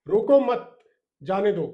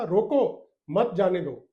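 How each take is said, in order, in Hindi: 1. विराम mat के ठीक बाद है। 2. विराम roko के ठीक बाद है। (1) "इसी कॉमा को हम कहीं और लगाते हैं" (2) "जैसे रोको के बाद लगाया कॉमा"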